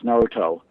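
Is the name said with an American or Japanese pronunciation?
Japanese. The name is said with a Japanese pronunciation. The speaker calls it right. "and it's"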